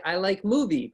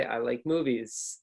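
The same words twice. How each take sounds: First: Says movie without the S; I like movie, dropping the S on movie; wrong form. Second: Movies with a clear S, slow; I like movies, hissing the final S of movies; correct plural. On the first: Showing the student's wrong way to learners. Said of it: "you say". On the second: Modeling the right form for learners. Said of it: "really you wanna say". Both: Shown as a demonstration.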